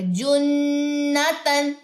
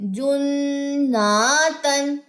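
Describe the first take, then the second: First: The vowel after the doubled n is short. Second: The vowel after the doubled n is long. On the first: The speaker calls it right. "सिर्फ गुन्ना करना है यहाँ पे" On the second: The speaker calls it wrong. "क्या गलती करते हैं"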